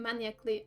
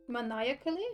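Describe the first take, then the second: First: Maniacally said as MAN-yuh-klee, three syllables; mispronounced word. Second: Maniacally said as muh-NYE-uh-kuh-lee, rising; corrected word. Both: Real, not acted.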